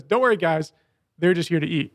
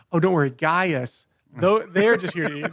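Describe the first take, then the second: First: Said in the usual way. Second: "Gaius" said as a two-syllable name, not "guys"; corrected line reading. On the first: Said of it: "I heard him say, "Don't worry, guys". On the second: Retold or imitated. Reassuring Gaius about the apostles, stress on "Gaius" and "they're". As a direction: address "Gaius" by name, then lean on "they're". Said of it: "explaining why Gaius is here".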